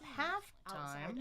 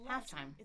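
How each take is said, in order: First: Both parts carry equal strong stress. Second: The first part is stronger than the second. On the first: The speaker calls it wrong. "not half time" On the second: The speaker calls it right. "it's secondary stress here"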